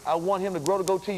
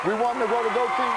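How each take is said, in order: First: Said in the usual way. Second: Rallying shout. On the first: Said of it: "urging to camera". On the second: Real, not acted. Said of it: "rallying the audience".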